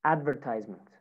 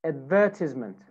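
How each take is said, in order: First: American "advertisement", "tise" rhyming with "size"; American accent. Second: British "advertisement", stressed on "VER"; British accent. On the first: Teacher models American "advertisement" for students, long I in "tise". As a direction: say "advertisement" as American "AD-ver-tize-ment". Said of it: "American accent". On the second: Teacher models British "advertisement" for students, stress on second syllable. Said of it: "British accent". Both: Shown as a demonstration.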